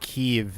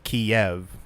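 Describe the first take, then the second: First: It is said the Ukrainian way, like Kyiv. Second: It is said the Russian way, like Kiev. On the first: The speaker calls it right. "Kiev is not Kiev" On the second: The speaker calls it wrong. "which is like the Russian pronunciation of it"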